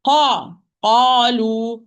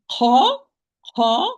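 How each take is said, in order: First: Qalu with no breath released; firm voiced qa; voiced qaf. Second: Qa with a puff of breath pushed out; whispered, aspirated qa; breathy wrong qa. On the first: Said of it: "no flow of breath". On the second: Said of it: "I push a lot of breath". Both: Shown as a demonstration.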